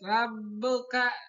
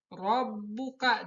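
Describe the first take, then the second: First: The r is thin with a plain vowel. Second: The r is thick with rounded open mouth. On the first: The speaker calls it wrong. "jangan rabbuka" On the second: The speaker calls it right. "tapi tebal"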